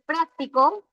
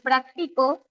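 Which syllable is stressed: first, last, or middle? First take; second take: first; middle. First: The stress is on the first syllable. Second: The stress is on the middle syllable.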